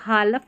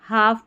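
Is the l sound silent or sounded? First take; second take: sounded; silent. First: An l sound is heard before the f. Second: No l sound is heard before the f. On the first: The speaker calls it wrong. "इसको हालफ नहीं पढ़ते" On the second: The speaker calls it right. "हाफ पढ़ते हैं"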